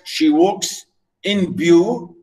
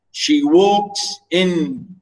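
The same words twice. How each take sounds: First: She walks in view, walks and view stressed, She and in light; scanning the meter for the class; iambic scansion. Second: Teacher scanning the line for students; iambic stress. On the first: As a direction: beat the iambs slowly. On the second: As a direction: tap out the beat, stress on walks. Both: Shown as a demonstration. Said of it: "unstressed stress".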